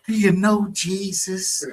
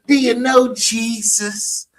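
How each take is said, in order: First: Slow, mild imitation; lightly mock the pious question. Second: High, slow put-on church voice.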